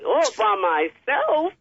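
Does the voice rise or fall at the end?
rise. The voice rises at the end, like a question.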